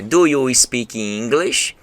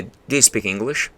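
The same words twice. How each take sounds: First: Slow, halting learner English; beginner's English. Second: "Do you speak English?" with a smoother learner tune rising on "you"; better intonation. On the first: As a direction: sound out each word like a beginner. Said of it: "no primeiro momento é aquele". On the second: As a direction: say it like an advancing student. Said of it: "Já tem uma entonação bacana". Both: Shown as a demonstration.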